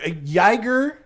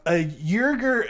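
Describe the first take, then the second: First: Uyghur said as "YAI-gur", rising; second pronunciation guess. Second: Uyghur said slowly as "YUR-gur"; first pronunciation guess. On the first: Podcaster retrying a foreign name, Uyghur as "YAI-gur". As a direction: say Uyghur with a "yai" first syllable. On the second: Podcaster guessing at a foreign name, Uyghur as "YUR-gur". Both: Real, not acted. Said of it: "I don't know how you say it".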